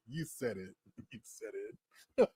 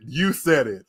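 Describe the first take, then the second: First: Very soft, with a laugh in it; barely voiced, trailing-off repeat; fading amused retort. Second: YOU hit firmly, then falling; firm, full-voiced comeback; emphatic retort. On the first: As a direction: let it die away under the laughter. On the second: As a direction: put the weight on "you" and land it. Joking retort, then repeated fading in laughter. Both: Real, not acted.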